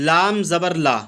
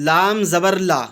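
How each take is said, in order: The two takes are said the same way.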